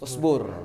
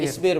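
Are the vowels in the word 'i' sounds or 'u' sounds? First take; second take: u sounds; i sounds. First: The word is said with 'u' vowels. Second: The word is said with 'i' vowels. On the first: This is the colloquial dialect form. The speaker calls it wrong. "dialek lah istilahnya ngubah-ngubah" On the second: This is the standard classical form. The speaker calls it right. "yang asli yang fasih berarti harusnya apa?"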